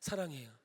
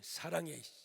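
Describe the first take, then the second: First: It is said with relaxed, untensed lips. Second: It is said with tensed, forceful lips.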